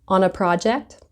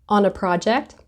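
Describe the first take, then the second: No difference in how they are said.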